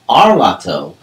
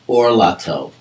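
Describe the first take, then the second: First: The first vowel is an open a sound. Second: The first vowel is a rounded o sound. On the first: The speaker calls it wrong. "not to pronounce the word arlato" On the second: The speaker calls it right. "but orlato"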